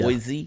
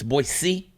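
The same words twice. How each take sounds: First: The middle consonant is a buzzing z sound. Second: The middle consonant is a soft s sound. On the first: The speaker calls it wrong. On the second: The speaker calls it right. "It's Boise, didn't have a Z in it"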